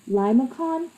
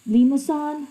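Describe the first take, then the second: First: The last syllable begins with a 'k' sound. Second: The last syllable begins with an 's' sound. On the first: This is the more popular pronunciation. "That's one of the um, pronunciations" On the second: This is a less common pronunciation. "I've also heard this being called as uh"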